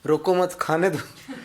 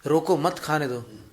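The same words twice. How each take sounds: First: रोको मत joined, then slow खाने दो; pause after मत. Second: Slow रोको, break, then मत खाने दो; measured warning, मत attached to खाने दो; pause after रोको. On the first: Teacher showing the deadly misreading, slow, pause after मत. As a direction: shift the break to after मत. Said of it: "मौत हो जाएगी उसमें तो". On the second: Someone stopping another eating poison, slow with break after रोको. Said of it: "उसमें जहर है". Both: Shown as a demonstration.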